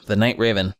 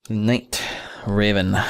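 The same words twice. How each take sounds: First: Said in the usual way. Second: "Night" and "Raven" said apart, with a pause; sounding it out. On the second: Shown as a demonstration. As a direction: split "Night" from "Raven" clearly.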